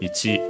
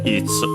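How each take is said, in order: First: The final vowel is clearly pronounced. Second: The final vowel is barely heard, if at all. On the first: "most likely pronounced with its most common pronunciation" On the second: "then they can be barely heard, if at all"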